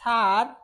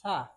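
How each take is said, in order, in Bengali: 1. শেষের r উচ্চারিত হয়। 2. শেষের r নীরব থাকে। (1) "নট স্যার"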